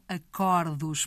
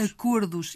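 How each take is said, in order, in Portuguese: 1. A vogal O tónica é aberta. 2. A vogal O tónica é fechada. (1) "e não acordos" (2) "o plural de acordo mantém o O fechado"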